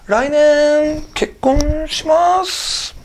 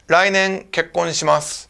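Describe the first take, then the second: First: It is said hesitantly, like a question. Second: It is said firmly, with conviction. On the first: The speaker is still debating about getting married. The speaker calls it wrong. "your wife-to-be will not be happy if you're like" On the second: The speaker is certain about getting married. The speaker calls it right. "You can actually say"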